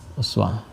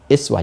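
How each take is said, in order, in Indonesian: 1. Vokal pertama adalah bunyi 'u'. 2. Vokal pertama adalah bunyi 'i'. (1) "Ini dhammah ya" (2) "bisa juga dibaca dengan iswah"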